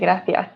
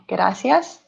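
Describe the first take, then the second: First: The middle consonant is said with a lisp. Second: The middle consonant is a plain hissing sound. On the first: It is the way it is said in Spain. "in Spain they definitely say gracias. So they pronounce it with a kind of like a lisp" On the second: It is the South American way of saying it. "in many South American countries, we say gracias"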